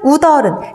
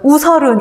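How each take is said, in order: First: The middle consonant is a d sound. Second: The middle consonant is an s sound. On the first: The speaker calls it right. "답은 우리가 너무나 잘 알고 있고요" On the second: The speaker calls it wrong. "여러분 우설은 이런 사람 없죠?"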